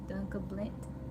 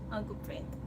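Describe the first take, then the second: First: The name is said as 'Dunca Blint', with L. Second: The name is said as 'Uncle Brent', with R. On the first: This is how a small child said it. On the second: This is how the name is meant to be said.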